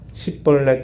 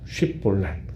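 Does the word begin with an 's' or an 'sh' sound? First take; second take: s; sh. First: The word begins with an 's' sound. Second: The word begins with an 'sh' sound. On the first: The speaker belongs to the Ephraimites. "쉽이란 발음을 못하고 십, 십볼렛 이렇게 발음을 한다는 거예요" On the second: The speaker belongs to the Gileadites. "쉽볼렛이라고 하는 발음을 해보라는 겁니다"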